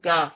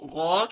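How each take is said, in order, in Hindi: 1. यह अक्षर बारीक बोला जाता है, खुले स्वर के साथ। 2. यह अक्षर मोटा बोला जाता है, गोल स्वर के साथ। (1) "बारीक पढ़ा लफ्ज, मखरिज गलत हो गया" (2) "अब ये दोनों मोटे पढ़े जाते हैं"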